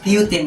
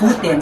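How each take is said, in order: First: The name is said with an English pronunciation. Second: The name is said with a Filipino pronunciation. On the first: "sa English" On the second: "sa Filipino"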